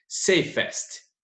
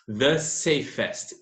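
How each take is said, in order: First: "Safest" whispered under the breath; whispered word. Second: "The safest" drawn out slowly, each word weighted; slow stressed form. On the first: ("Safest" sussurrado) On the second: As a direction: spell out "The safest" slowly for the class. ("The safest" dito devagar e enfatizado) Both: Shown as a demonstration. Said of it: "Esse E S T já está indicando".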